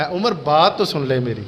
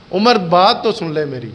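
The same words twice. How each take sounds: First: Soft, lowered, pleading appeal to Umar; in his own tone. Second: Said in the usual way. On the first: Shown as a demonstration. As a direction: lower and softer, a humble plea. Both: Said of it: "اب وہ اپنے لہجے میں ہے".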